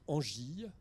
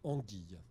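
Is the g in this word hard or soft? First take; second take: soft; hard. First: The g is soft, like a j sound. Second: The g is hard, like in go. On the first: The speaker calls it wrong. "ne lisez pas angille" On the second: The speaker calls it right. "mais lisez anguille"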